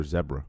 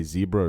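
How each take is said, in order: First: "zebra" with a short E, ZEB-ra; British zebra. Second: "zebra" with a long EE, ZEE-bra; American zebra. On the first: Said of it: "I say it the British way". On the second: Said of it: "How do you say". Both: Shown as a demonstration.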